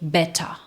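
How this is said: The t is crisp, final r dropped. "No britânico, geralmente vai ficar o quê? ... Eles mantêm ... o som do T normal, e o R no final das palavras, eles engolem"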